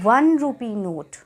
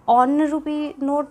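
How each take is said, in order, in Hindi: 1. पहला शब्द w ध्वनि से शुरू होता है। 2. पहला शब्द एक सामान्य स्वर ध्वनि से शुरू होता है। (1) "हम इसको बोलते हैं" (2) "तो नहीं बोलते"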